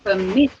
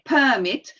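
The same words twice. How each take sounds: First: The stress is on the second syllable. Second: The stress is on the first syllable. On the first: It is the verb meaning to allow. The speaker calls it right. "On the second, yes. ... you say permit" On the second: It is the noun meaning a document of permission. The speaker calls it wrong. "You don't say permit, which is another thing. It's a noun"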